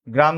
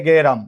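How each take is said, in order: First: Said in the usual way. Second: গেরাম as "ge-ram", two syllables; inserted vowel. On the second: Shown as a demonstration. Teacher gives class an example, গেরাম with "e" after g. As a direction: open the gr cluster with an "e": গেরাম. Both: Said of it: "আমরা বলেছিলাম গ্রাম থেকে".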